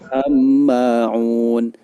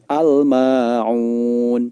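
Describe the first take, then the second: First: The L is merged into a doubled M. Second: The L is pronounced clearly before the M. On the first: The speaker calls it wrong. "Tidak boleh dibaca am-ma'un" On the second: The speaker calls it right. "alnya wajib dibaca dengan jelas"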